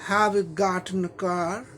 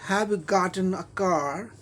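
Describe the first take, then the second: No difference in how they are said.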